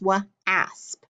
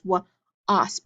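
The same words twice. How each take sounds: First: The vowel is a short a sound. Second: The vowel is a short o sound. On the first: The speaker calls it wrong. "accidentally made the short vowel sound" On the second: The speaker calls it right. "I can try that short O"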